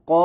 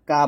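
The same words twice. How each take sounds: First: ক with a rounded o vowel, heavy at the back; thick ko. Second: কা with an open aa vowel, light; thin kaa. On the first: Teacher shows the correct qaf sound, thick ko. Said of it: "কফ জবর ক বলতে হবে". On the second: Teacher shows the mistake to avoid, thin kaa. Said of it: "কা বলা যাবে না". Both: Shown as a demonstration.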